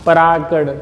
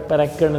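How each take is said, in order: First: Said in the usual way. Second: परागकण with the long "raa" cut short, softer; softly mimicked wrong परागकण with a short middle vowel; mispronounced word. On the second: Shown as a demonstration. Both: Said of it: "परागकण नहीं".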